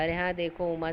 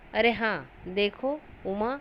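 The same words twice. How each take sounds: First: The words run together without any pauses. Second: Short pauses come after 'are haan' and 'dekho'. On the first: The speaker calls it wrong. "मैं ऐसा नहीं मैंने पढ़ा" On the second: The speaker calls it right. "अरे हाँ में जो थोड़ा रुकावट है उसे अल्प विराम कहते हैं"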